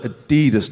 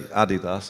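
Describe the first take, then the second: First: It is said the local Greater Manchester way. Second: It is said a different, non-local way. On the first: This is how locals say it. "we call it Adidas" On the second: This is how locals do not say it. "We don't say Adidas"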